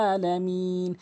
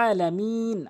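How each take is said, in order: No difference in how they are said.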